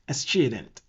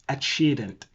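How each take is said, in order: First: The word is said with an Italian-style reading. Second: The same.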